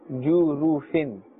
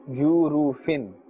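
Both takes have the same delivery.

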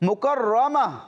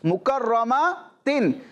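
First: The word ends with a soft h sound. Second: The word ends with a t and n sound. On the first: The reciter stops on this word. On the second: The word is read without stopping.

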